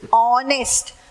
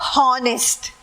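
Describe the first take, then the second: First: The word starts without an h sound. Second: The word starts with an h sound. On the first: The speaker calls it right. "yach is silent. Honest. The pronunciation is honest" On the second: The speaker calls it wrong. "not honest"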